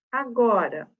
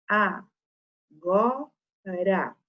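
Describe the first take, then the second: First: Said in the usual way. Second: "a, go, ra" com pausa entre as sílabas; separando sílabas. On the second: Shown as a demonstration. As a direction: diga "a... go... ra", sílaba por sílaba. ("a, go, ra" em sílabas isoladas) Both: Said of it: "Se eu separar sílabas".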